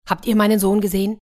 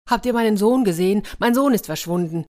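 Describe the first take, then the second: First: Quick, louder, higher worried asking; urgent question. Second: Hurried, higher-pitched frantic father; panicked. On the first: Acted. Villager runs up looking for his son, urgent question. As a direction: ask in haste, searching for someone. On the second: A narrator's reading. Father asks the mob about his son, panicked. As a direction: plead for news of a missing child. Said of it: "Der Mann war schon ganz panisch".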